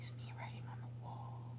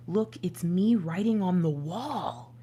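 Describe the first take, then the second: First: Breathy unvoiced whisper of the line; whispered repeat. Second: Said in the usual way. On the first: Real, not acted. Reader rereading the message to viewers, whispered. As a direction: hush it like a secret omen.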